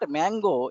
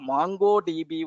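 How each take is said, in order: First: The first vowel sounds like in 'man'. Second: The first vowel sounds like in 'mon'. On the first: The speaker calls it wrong. "It is not Mango" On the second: The speaker calls it right. "It is the MongoDB"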